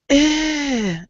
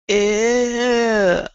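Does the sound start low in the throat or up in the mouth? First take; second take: mouth; throat. First: It starts forward and relaxed in the mouth. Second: It starts low and tense in the throat. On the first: The speaker calls it right. "Start in your mouth" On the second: The speaker calls it wrong. "because you're starting down"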